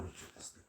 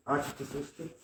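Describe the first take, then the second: First: Hushed unvoiced reply; whispered echo. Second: Said in the usual way. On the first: Shown as a demonstration. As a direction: drop to a whisper. Repeated line, voiced then whispered.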